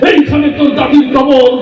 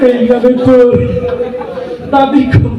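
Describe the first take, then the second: First: It is declaimed loudly like a heated speech. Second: It is said quietly and bashfully. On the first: A politician is reciting like a rally speech. "রাজনীতির মঞ্চে গরম বক্তব্য দিয়ে অভ্যাস" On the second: A very shy boy was forced to recite. "সরমে শেষ"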